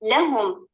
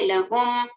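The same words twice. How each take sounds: First: The stress is on the first syllable. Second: The stress is on the second syllable. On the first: The speaker calls it right. "हर्फ अल लाम पर" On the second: The speaker calls it wrong. "लाम को छोड़कर हर्फ अल हा पर नंबर डालेंगे"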